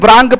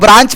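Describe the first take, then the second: First: The word ends with a 'k' sound. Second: The word ends with a 'ch' sound. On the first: The speaker calls it wrong. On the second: The speaker calls it right.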